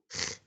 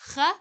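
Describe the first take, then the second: First: The consonant is said with no vowel after. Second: The consonant is followed by a short vowel. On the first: "and in the end" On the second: "pronounced in the beginning"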